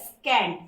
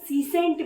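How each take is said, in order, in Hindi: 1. बीच का व्यंजन k ध्वनि है। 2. बीच का व्यंजन s ध्वनि है। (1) "इसका एग्जैक्ट प्रोनाउंसिएशन होता है स्कैंट" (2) "बहुत लोग सीसेंट भी पढ़ते हैं"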